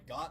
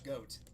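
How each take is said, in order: First: The vowel is short, rhyming with 'got'. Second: The vowel is long, rhyming with 'goat'. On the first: This is how the speaker has always said it. "I've always pronounced it Got" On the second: This is how other people say it. "people would say it's a goat because it looks like one"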